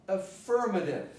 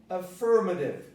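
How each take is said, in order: The two takes are said the same way.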